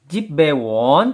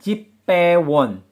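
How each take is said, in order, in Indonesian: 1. Kata kedua dimulai dengan konsonan polos. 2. Kata kedua dimulai dengan konsonan tegang. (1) "Jip bewon penulisannya" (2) "pelafalannya jip pewon"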